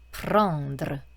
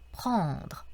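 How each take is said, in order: First: The final r is stressed, adding an extra syllable. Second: The final r is light and barely heard. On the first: The speaker calls it wrong. "르라고 너무 강조해서 발음을 하게 되면" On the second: The speaker calls it right. "에흐 발음이 강조가 되는 발음이 아니라 이렇게 지나가듯이 자연스럽게 이렇게 연결되는 발음"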